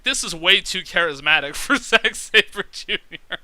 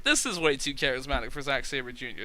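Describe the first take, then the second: First: Reads the comment out, laughing halfway through, louder; laughing while quoting. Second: Said in the usual way. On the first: Retold or imitated. Quoting a viewer comment, laughing through it. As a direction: quote the comment and crack up on it. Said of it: "I got comments like". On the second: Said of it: "I was like".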